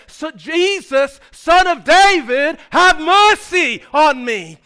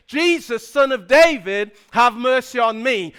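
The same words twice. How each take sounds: First: High, loud, drawn-out plea; louder cry. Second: Raised voice. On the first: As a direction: cry out slowly over the hecklers. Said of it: "his voice gets louder and louder". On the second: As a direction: plead loudly over the crowd. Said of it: "he raises his voice and says". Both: Retold or imitated.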